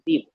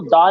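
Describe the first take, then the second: First: The word ends in a long 'ee' vowel. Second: The word ends in a short 'uh' vowel. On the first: The speaker calls it right. "क्या बोलेंगे, दी" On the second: The speaker calls it wrong. "अब इसको दा नहीं बोलेंगे"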